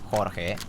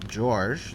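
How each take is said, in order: First: The name is said with a Spanish pronunciation. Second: The name is said with an English pronunciation. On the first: "if you're gonna say it in Spanish, you should say Jorge, like Jorge" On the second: "one's English"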